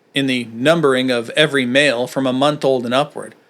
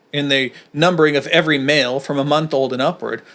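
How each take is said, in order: The two takes are said the same way.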